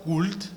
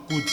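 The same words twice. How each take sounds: First: Could with an L sounded, "kult"; wrong pronunciation. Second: Could said "kud", L silent; correct pronunciation. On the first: Teacher showing learners the wrong could, slow. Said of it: "Ne dites pas could". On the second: Teacher showing learners the right could. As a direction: drop the L in could. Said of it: "prononcez simplement could". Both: Shown as a demonstration.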